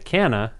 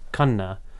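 First: The name is said with an anglicized pronunciation. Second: The name is said with an Indian pronunciation. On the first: "I used to go by Canna, and I didn't like it" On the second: "the Indian pronunciation would be like Khanna"

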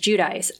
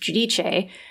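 First: The name is said with American pronunciation. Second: The name is said with Italian pronunciation. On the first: The speaker calls it wrong. "the American way" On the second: The speaker calls it right. "the Italian pronunciation"

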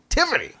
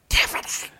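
First: It is yelled in a full loud voice. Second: It is yelled in a whisper.

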